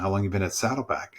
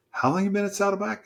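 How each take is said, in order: First: Said in the usual way. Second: High-pitched, quick astonished question; incredulous. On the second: Retold or imitated. Pastor to newcomer who leads a group, incredulous. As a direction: ask again in retold disbelief, voice leaping up.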